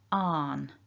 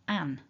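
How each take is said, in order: First: The syllable has a long open vowel. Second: The syllable has a short flat vowel. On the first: "Here we're looking at the R version" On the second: "many parts of England where you'll hear people say an, as in answer"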